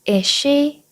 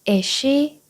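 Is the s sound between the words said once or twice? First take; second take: once; once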